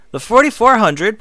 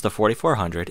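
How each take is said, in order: First: "The forty-four hundred" said higher and louder, a rising announcement with the weight on "forty-four"; announced title. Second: Said in the usual way. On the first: Shown as a demonstration. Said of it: "pronounced The Forty-four hundred".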